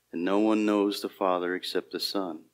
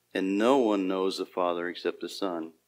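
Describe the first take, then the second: Both takes have the same delivery.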